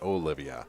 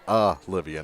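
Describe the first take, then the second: First: The name begins with an 'o' vowel sound. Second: The name begins with an 'a' vowel sound. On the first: The speaker calls it wrong. "not Olivia" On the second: The speaker calls it right. "This is Olivia"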